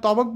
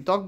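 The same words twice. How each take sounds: First: "তবক" with the ব sounded as its own syllable; wrong pronunciation. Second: Said in the usual way. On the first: Shown as a demonstration. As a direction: say "তবক" as to-bok, two syllables. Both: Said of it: "বলিনি, ত্বক বলেছি".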